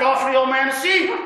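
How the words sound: It is said in a harsh, stern voice.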